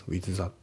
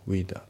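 First: "with that" as separate katakana-style "wizu zatto"; "with that" word by word, unlinked; TH fully sounded. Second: "with that" merged as "wi-dat"; "with that" as one linked word; dropped TH. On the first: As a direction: sound out both th's in "with that". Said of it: "with thatじゃなくて". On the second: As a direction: drop the th of "with" and run into "that". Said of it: "そのティーエイチが抜けますね". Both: Shown as a demonstration.

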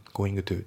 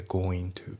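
First: Going to with the g said out; going to said word by word; full g in going. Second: Going to said goin to; no g sound in going to; going to run together as goin-to; dropped g in going. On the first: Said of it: "じゃなくて". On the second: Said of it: "goingのGが抜けますね". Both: Shown as a demonstration.

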